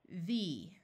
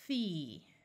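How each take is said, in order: First: The th sound is voiced, with vocal buzz. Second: The th sound is unvoiced, without vocal buzz. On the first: "Now let's do it with the voice sound" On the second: "using the unvoiced th sound"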